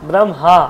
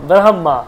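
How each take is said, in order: Both takes have the same delivery.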